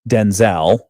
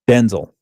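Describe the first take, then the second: First: The stress is on the second syllable. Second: The stress is on the first syllable. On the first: The speaker calls it wrong. "A lot of people call say Denzel because uh, it seems like it should be that" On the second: The speaker calls it right. "Heavy emphasis on the den, very low on the Zol"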